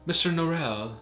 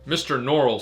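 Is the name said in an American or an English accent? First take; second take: English; American. First: The name is said in an English accent. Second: The name is said in an American accent. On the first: "sounds very English" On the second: "sounds very American"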